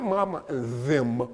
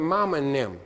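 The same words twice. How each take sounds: First: Said in the usual way. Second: "them" said nem, mama and nem. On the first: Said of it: "not mama and them". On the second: Shown as a demonstration. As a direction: turn the th of "them" into an n. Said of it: "T H is an N".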